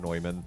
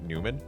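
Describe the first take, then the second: First: The name sounds like German 'Noy-mann'. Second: The name sounds like English 'Newman'. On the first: The speaker calls it right. "the proper German pronunciation of Neumann" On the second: The speaker calls it wrong. "everyone pronounced it Newman, which is incredibly incorrect"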